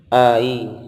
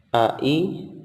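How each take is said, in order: First: The vowels glide together without a clear break. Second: Each vowel starts clearly from the throat, separated. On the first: The speaker calls it wrong. "tidak boleh hanya didorong" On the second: The speaker calls it right. "keluar dari pangkal tenggorokan a-nya, i-nya juga keluar dari pangkal tenggorokan"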